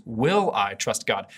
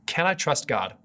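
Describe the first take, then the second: First: "Will" punched, whole line slow; stress on WILL. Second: "I" leaned on, falling at the end; stress on I. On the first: Preacher offering the better question to viewers, slow with stress on "Will". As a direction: slowly ask "Will I trust God?" with the weight on "Will". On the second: Preacher posing the first question to the viewers, stress on "I". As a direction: ask "Can I trust God?" weighing the word "I". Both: Shown as a demonstration. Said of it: "Maybe even a better question is".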